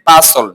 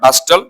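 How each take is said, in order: First: The t sound is silent in the middle. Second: The t sound is pronounced in the middle. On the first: The speaker calls it right. "টি silent থাকবে" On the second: The speaker calls it wrong. "Not বাস্টল"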